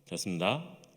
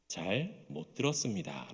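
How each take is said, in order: First: The phrase is slurred into a few syllables. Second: Every syllable is pronounced distinctly and carefully. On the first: A senior soldier says it. "병장이 되면은" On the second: The lowest-ranked soldier says it. "이등병 때는요, ... 또박또박 이야기를 합니다"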